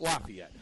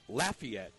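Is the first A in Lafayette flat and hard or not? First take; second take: not flat; flat. First: The first A is not flat and hard. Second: The first A is flat and hard. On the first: It names a school in Pennsylvania. The speaker calls it wrong. "Not Lafayette. ... Is a school in eastern Pennsylvania" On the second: It names the home of the Raging Cajuns. The speaker calls it right. "Lafayette with a flat, hard A"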